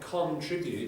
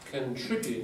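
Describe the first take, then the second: First: The first syllable has a full vowel. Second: The first syllable has a weak schwa vowel. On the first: It is hard to hear which syllable carries the stress. The speaker calls it wrong. "it sounds like I'm stressing and stressing" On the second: It is clearer which syllable carries the stress. The speaker calls it right. "if we make that weak"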